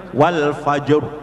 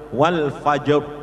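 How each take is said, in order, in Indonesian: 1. R di akhir tebal, dengan bibir membulat. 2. R di akhir tebal, dengan bibir membulat.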